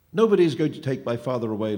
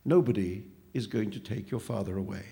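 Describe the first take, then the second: First: Loud, defiant outcry; crying out. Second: Measured, unruffled agreement; calm echo. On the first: Boy defends father against the phantom, crying out. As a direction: cry it out forcefully in defiance. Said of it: "Luca cried". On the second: Phantom turns the boy's words back on him, calm. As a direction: echo the outcry back calmly, without raising the voice. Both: A narrator's reading.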